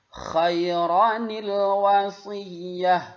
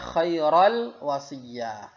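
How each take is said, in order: First: An extra 'ni' syllable joins the two words. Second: The two words join directly without 'ni'. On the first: The speaker calls it right. "Bagaimana cara membacanya?" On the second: The speaker calls it wrong. "Jadi jangan dibaca khairal wasiyah"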